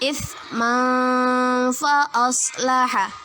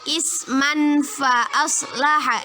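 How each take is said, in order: First: The n before fa is blurred and held longer. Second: The n before fa is pronounced clearly, not held. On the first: The speaker calls it right. "Yang benar ... Samar-samar ditahan dua harokat" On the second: The speaker calls it wrong. "itu salah ya, berarti itu jelas"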